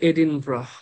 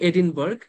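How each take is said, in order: First: The word ends with a soft 'bra' sound. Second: The word ends with a hard 'burg' sound. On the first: The speaker calls it right. "উচ্চারণ করে এডিনব্রাহ" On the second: The speaker calls it wrong. "লেখে এডিনবার্গ"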